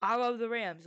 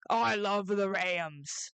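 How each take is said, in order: First: Said in the usual way. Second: Slow, drawn-out declaration of love; said slowly out loud. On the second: Shown as a demonstration. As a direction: spell out "I love the Rams" slowly and deliberately. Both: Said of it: "I just wanna say it out loud".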